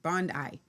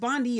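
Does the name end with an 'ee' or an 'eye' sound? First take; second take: eye; ee. First: The name ends with an 'eye' sound. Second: The name ends with an 'ee' sound. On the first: The speaker calls it right. "Bond I, like E Y E" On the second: The speaker calls it wrong. "it would have an E on it, like a B, like Blondie"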